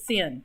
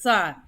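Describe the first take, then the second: First: The word has a short vowel, like 'sin'. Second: The word has a long vowel, like 'sign'. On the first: The speaker calls it wrong. "Do not pronounce it sin" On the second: The speaker calls it right. "pronounce it sine"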